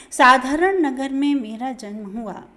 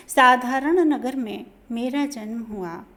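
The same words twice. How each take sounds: The two takes are said the same way.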